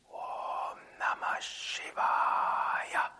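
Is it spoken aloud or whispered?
whispered. It is whispered without full voice.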